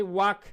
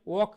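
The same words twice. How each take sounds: First: Walk with an open "wahk" vowel; drawn-out American walk, open vowel; American pronunciation. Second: Walk with a rounded "wawk" vowel; British pronunciation. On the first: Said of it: "walk American". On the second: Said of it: "walk British". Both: Shown as a demonstration.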